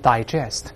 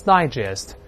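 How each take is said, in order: First: The stress is on the second syllable. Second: The stress is on the first syllable. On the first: It is a verb meaning to digest or understand. "动词消化或者是理解" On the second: It is a noun meaning a digest or summary publication. "重音在前面读成digest 那是文摘的意思"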